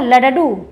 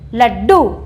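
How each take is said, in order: First: The two d sounds are split into separate syllables. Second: The d sound is held double without a vowel. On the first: The speaker calls it wrong. "क्या लडडू शब्द सही है? नहीं" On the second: The speaker calls it right. "ड देखिए आधा आ रहा है"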